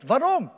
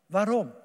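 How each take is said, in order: First: Louder, higher, searching Waarom; emphatic question. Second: Said in the usual way. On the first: Acted. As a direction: throw Waarom out to the congregation. Repeated rhetorical question.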